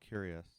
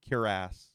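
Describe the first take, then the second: First: It is said like the word curious. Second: It is said like kwi-rass. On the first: The speaker calls it wrong. "I keep saying curious" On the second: The speaker calls it right. "I have to force myself to pronounce it properly"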